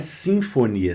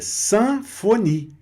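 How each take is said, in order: First: The first syllable sounds like 'sin'. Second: The first syllable sounds like 'san'. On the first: The speaker calls it wrong. "Não é sinfonia" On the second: The speaker calls it right. "é sanfonie"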